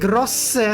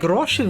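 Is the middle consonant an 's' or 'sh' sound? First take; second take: s; sh. First: The middle consonant is an 's' sound. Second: The middle consonant is a 'sh' sound. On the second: "Is it like Sha?"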